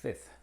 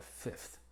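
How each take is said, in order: First: "Fifth" with the middle F dropped, ending in TH; "Fifth" said as fith; fifth without F. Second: "fifth" with the middle F kept; "fifth" with every F clearly said. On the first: ("Fifth" sin la F del medio) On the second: ("fifth" con la F pronunciada) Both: Shown as a demonstration. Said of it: "es opcional en una sola palabra".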